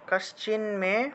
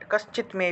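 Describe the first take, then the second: First: The words join with an n sound before 'me'. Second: The words split with a t sound before 'me'.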